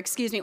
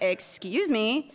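First: It is said in a plain, polite tone. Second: It is said in a snide, sarcastic tone.

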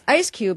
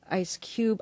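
First: The stress falls on the first word. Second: The stress falls on the last word. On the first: "if it's Ice Cube, it really sounds like the Ice Cube" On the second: "and if it's [name], I don't know"

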